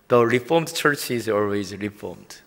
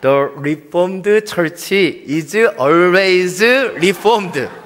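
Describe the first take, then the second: First: It is read without a New York accent. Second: It is read in a New York accent.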